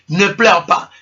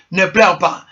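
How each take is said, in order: Both takes have the same delivery.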